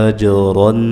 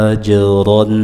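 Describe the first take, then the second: No difference in how they are said.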